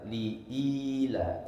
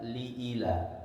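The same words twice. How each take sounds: First: The vowel after the glottal stop is held long. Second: The vowel after the glottal stop is cut short. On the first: The speaker calls it right. "hamzah di awal hadirin setelah lam baca panjang" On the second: The speaker calls it wrong.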